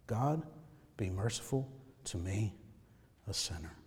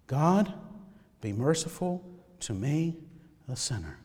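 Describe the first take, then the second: First: Soft, low prayer on the breath; very hushed heartbeat prayer. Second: Low, hushed plea; soft prayer. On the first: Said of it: "say that with their heartbeat, with their breath". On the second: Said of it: "You need a prayer to pray". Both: Shown as a demonstration.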